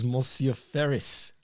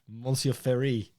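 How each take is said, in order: First: "Ferris" with its final s sounded; mock-French naming. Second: "Ferry" slowly, French-style, with no final s; mock-French pronunciation. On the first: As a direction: say "Ferris" slowly, ending on a clear s. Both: Joke Frenchifying the name Ferris.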